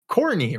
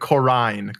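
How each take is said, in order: First: The middle vowel is dropped from the name. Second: The middle vowel is kept in the name. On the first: The speaker calls it wrong. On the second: The speaker calls it right.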